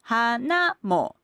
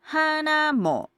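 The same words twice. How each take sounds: First: The pitch falls after hana, on mo. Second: The pitch stays level through mo.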